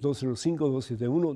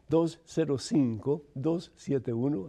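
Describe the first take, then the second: First: It is said at normal speed. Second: It is said slowly.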